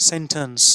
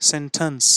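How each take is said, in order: The two takes are said the same way.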